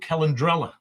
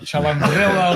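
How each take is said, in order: First: The name begins with a hard k sound. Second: The name begins with a ch sound. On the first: The speaker calls it right. "Spot on" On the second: The speaker calls it wrong. "it's not like Chalandrella"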